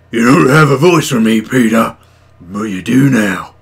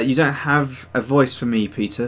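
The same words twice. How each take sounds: First: Big, loud character voice; Captain Red. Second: Said in the usual way. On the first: Acted. Inventing a voice for a viewer, loud and theatrical. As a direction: boom it out in a put-on character voice. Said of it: "That's your voice".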